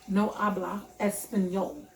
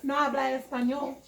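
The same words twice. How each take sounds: First: Said in the usual way. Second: Light put-on Spanish accent, lifting at the end; fake Spanish accent. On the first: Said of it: "I said it that way". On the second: Shown as a demonstration. Showing how she could have refused the man, fake Spanish accent. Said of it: "my little fake Spanish accent".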